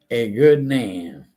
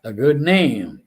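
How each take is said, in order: First: "good" leaned on, each word drawn out slowly; slow, stress on good. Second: Said in the usual way. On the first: Shown as a demonstration. Repeating the Bible phrase to his listeners, slow with weight on "good".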